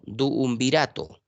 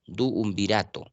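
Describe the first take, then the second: First: Duumvirato with the double u held long, slow; stretched double u. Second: Said in the usual way. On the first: Shown as a demonstration. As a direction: stretch the two u's in duumvirato. (duumvirato con la doble u alargada y lenta) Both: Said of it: "U, U".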